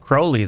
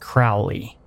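First: The name rhymes with holy. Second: The name does not rhyme with holy. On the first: "Does rhyme with Crowley" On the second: "holy doesn't rhyme with Crowley"

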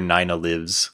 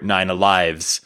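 First: Lives has a short vowel, rhyming with gives. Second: Lives has a long vowel, rhyming with hives. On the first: The cat is alive. "because she does" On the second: The cat possesses several lives. "because she has them"

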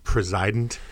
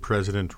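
First: It is said to echo the word preside. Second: It is said in the usual everyday way. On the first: The office holder only presides over government. The speaker calls it right. "we should pronounce it president because he's just supposed to be sort of presiding" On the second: The office holder runs everything. The speaker calls it wrong. "we pronounce the word president wrong"

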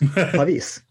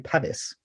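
First: The name is said with a Norwegian pronunciation. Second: The name is said with an English pronunciation. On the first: "what was the Norwegian?" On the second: "In English, I would say Pavis"

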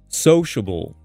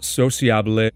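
First: It is said with a standard English pronunciation. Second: It is said with a Spanish-influenced pronunciation. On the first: The speaker calls it right. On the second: The speaker calls it wrong.

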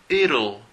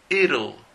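No difference in how they are said.

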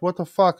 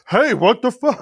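First: It is said in a passive, mild way. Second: It is said in an aggressive, confrontational way.

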